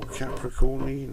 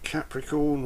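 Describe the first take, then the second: First: The word ends with an extra vowel sound. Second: The word ends on the n sound.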